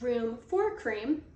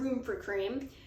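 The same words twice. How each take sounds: First: Each word is said separately and clearly. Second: The words run together like one word.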